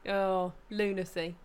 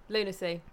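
First: Slow, stretched oh, lunacy; drawn-out lunacy. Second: Said in the usual way. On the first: Shown as a demonstration. Friend mock-sighing at Americans hating roundabouts, drawn out. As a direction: savour the word lunacy slowly. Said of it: "drawn out". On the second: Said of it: "repeated plainly".

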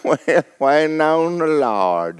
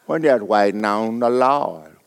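First: "We're waiting on the Lord" drawn out slowly through a laugh; mock pious drawl. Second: Mock pious drawl. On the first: Preacher mocking churchgoers, slow and laughing. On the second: Preacher mocking idle believers, slow and lower. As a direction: sink into a lazy drawl on "waiting on the Lord". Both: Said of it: "We hadn't done nothing in ten years".

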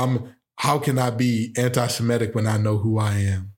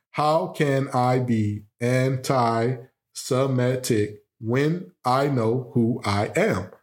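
First: Said in the usual way. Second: Slow, deliberate "How can I be anti-Semitic when I know who I am?"; syllable by syllable. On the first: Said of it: "watch this". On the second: Shown as a demonstration. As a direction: spell out every syllable to count them. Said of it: "let's count the syllables here".

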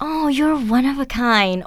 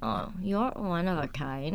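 First: Genuinely meant, slow and kind; sincere compliment. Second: Much softer, slow and snide; sarcastic compliment. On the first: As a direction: say it like you mean it. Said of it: "ถ้าเกิดพูดด้วยน้ำเสียงอีกอย่าง". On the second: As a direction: say it as a backhanded dig. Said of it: "See, it's different". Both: Shown as a demonstration.

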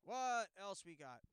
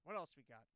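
First: Much louder, slow sing-song; mock drawn-out call. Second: Said in the usual way. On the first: Host moving to the next clip with a loud slow sing-song. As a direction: stretch it out loud like a showman.

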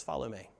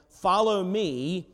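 First: Hushed call. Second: Slow drawn-out call. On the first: Repeats Jesus's call, even softer. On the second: First reading of the call. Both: Acted.

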